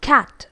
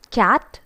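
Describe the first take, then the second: First: CAT with open short A, no Y glide; cat, properly modelled; correct English cat. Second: CAT said as "kyat"; cat with intrusive Y; wrong pronunciation of cat. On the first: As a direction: say CAT cleanly without a Y. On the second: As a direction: put a Y glide after the K in CAT. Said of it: "It's not cat". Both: Shown as a demonstration.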